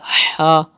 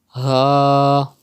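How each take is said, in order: First: The sound is made higher up, not in the throat. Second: The sound is made from the bottom of the throat. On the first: The speaker calls it wrong. "If you read it as ha, it's not correct" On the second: The speaker calls it right. "read from the bottom part of your throat like ha"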